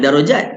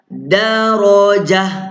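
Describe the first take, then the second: First: The word ends with a clear t sound. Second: The word ends with a soft h sound. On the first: It is said the Malay way. The speaker calls it wrong. "Kalau bahasa Melayu darajat lah" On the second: It is read the Arabic way when stopping. The speaker calls it right. "bunyi jah darajah"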